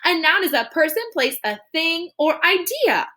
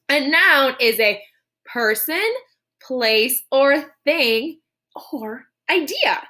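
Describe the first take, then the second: First: It is said too fast. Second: It is said more slowly.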